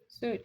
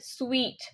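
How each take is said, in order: First: The word sounds like suit. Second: The word sounds like sweet. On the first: The speaker calls it wrong. "people still pronounce this one as suit also, but that's incorrect" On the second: The speaker calls it right. "The correct pronunciation is sweet"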